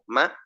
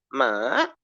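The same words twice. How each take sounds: First: The pitch stays at a middle level. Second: The pitch dips down and then rises. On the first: "me dejo en un sonido intermedio" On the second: "empiezo normal, luego me bajo y luego subo"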